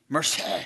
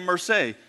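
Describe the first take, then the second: First: It has a deep throaty French sound. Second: It has a flat Texan American accent. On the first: The speaker calls it right. "you have to get it out of the back of your throat for the C" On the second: The speaker calls it wrong. "Here's what they heard when I say merci. This is some dumb guy from Texas"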